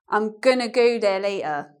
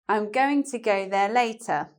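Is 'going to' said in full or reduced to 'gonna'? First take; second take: reduced; full. First: 'Going to' is run together as 'gonna'. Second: 'Going to' is said as two full words.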